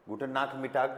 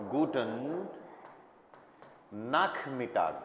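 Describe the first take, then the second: First: Said in the usual way. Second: "guten ... nachmittag" said apart with a long pause, throaty KH in "nachmittag"; split slow demo. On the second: Shown as a demonstration. Teacher to students, slow split German demo. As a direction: break it into two slow pieces for learners. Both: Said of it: "देखो इसका sound कैसे हो रहा है".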